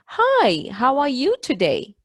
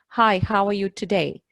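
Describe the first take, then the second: First: It copies the same distinctive, marked melody. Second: It is said with plain, ordinary intonation.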